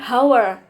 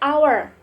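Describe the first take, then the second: First: The word begins with an audible h sound. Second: The word begins with a vowel, no h sound. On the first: The speaker calls it wrong. "bukan hour" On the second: The speaker calls it right. "Karena bacanya itu hour"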